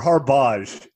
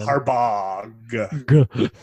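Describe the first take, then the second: First: The name ends without a hard G sound. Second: The name ends with a hard G sound. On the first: "as he likes to be called" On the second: "I love that you pronounce that with a hard G at the end"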